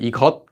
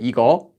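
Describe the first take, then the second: First: The word ends with a closing consonant. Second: The word ends on an open vowel. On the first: It is the full form. "instead of 이것" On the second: It is the quick, casual spoken form. "They'll say 이거"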